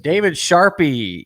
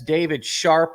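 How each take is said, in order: First: The surname is said as two syllables. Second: The surname is said as one syllable. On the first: The speaker calls it wrong. "that was the way they pronounced my name" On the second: The speaker calls it right. "with a silent E"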